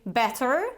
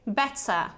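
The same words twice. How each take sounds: First: An R sound is heard at the end. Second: No R sound is heard at the end. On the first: The speaker calls it wrong. "I'm not saying better" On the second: The speaker calls it right. "I'm saying better"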